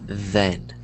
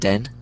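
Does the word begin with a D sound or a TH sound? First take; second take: TH sound; D sound. First: The word begins with a soft TH sound. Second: The word begins with a hard D sound. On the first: The speaker calls it right. "but it's the" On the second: The speaker calls it wrong. "That's how people are pronouncing it"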